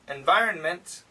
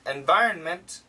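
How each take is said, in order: First: A slight N sound is heard before the M. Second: The same.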